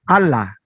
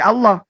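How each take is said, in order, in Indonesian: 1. Huruf 'l' dan vokalnya tipis dan ringan. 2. Huruf 'l' dan vokalnya tebal dan berat. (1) "itu salah secara bacaan" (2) "harus dibaca tebal"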